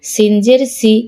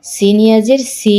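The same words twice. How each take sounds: First: No stretch on সি; short vowel. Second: Long, sustained সি; drawn-out vowel. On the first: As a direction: end on a short সি. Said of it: "কোথায় দ্রুত পড়ি". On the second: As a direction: hold the final সি for one alif count. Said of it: "কোথায় টান দিই". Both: Shown as a demonstration.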